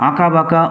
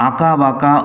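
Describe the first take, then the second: No difference in how they are said.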